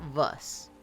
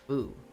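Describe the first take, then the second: First: The name ends with an s sound. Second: The name ends without an s sound. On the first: The speaker calls it wrong. "Not Vus" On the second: The speaker calls it right. "That is how you say it"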